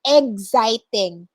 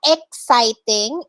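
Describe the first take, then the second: First: Exciting said as "eg-siting"; exciting modeled slowly with a g sound; correct pronunciation demo. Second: Exciting said as "ek-siting", with a k; exciting mispronounced "EK-siting"; wrong pronunciation demo. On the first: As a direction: say exciting starting like egg, slowly. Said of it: "As in egg". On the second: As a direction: say exciting with a hard k sound first. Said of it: "it's not exciting". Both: Shown as a demonstration.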